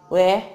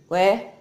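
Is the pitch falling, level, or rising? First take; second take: rising; rising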